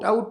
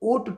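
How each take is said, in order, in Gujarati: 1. સ્વર 'out' માં 'ow' ની જેમ સરકે છે. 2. સ્વર એક સાદો 'aw' અવાજ છે. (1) "આઉટ આઉટ ના કરતા" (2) "ઉચ્ચાર ખાસ જોજો"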